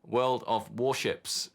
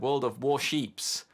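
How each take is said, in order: First: The last word is said as 'ships'. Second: The last word is said as 'sheeps'. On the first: The speaker calls it right. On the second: The speaker calls it wrong.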